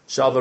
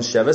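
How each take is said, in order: First: The first vowel sounds like an 'a'. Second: The first vowel sounds like an 'e'. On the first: This is the Yemenite pronunciation. "Sheva is pronounced more shava" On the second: This is the non-Yemenite pronunciation. "rather than sheva"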